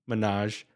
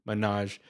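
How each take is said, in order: No difference in how they are said.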